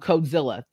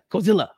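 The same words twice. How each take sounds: First: It is said plainly, without extra force. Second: It is said with dramatic anime-style emphasis.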